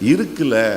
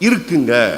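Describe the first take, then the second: First: It is said in Tirunelveli Tamil dialect. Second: It is said in Coimbatore Tamil dialect. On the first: "Tirunelveli வர்றதுக்குள்ள என்னதான் மாறிடுது?" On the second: "கோயம்புத்தூர்காரங்க தான் ரொம்ப மரியாதையா பேசுறவங்க"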